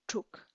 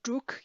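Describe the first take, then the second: First: The word starts with a T-like sound. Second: The word starts with a voiced D sound. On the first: The speaker calls it right. "you would hear tuk" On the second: The speaker calls it wrong. "you probably won't hear druk"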